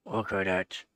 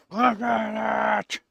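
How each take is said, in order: First: Said in the usual way. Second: Slow, high and louder; high pet voice. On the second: Real, not acted. To the smiling cat, slow high baby talk.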